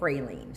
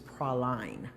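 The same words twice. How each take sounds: First: The word is pronounced the Texas way. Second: The word is pronounced the French way. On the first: This is how people in Texas and nearby states say it. "if you're in Texas, if you're in Mississippi, if you're in Georgia" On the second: This is the original French pronunciation. "It's actually a French word, and the way that it's actually pronounced is praline"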